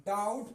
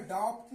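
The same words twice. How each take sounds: First: "डाउट" with the vowel gliding straight into t; no b before the t of "डाउट"; silent b. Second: "डाउट" with a consonant sounded before t; wrong pronunciation. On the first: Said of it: "डाउट पढ़ा जाएगा". ("डाउट" में ब silent, सही उच्चारण) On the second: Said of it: "डाउट नहीं पढ़ेंगे". ("डाउट" में ब बोलकर गलत उच्चारण) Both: Shown as a demonstration.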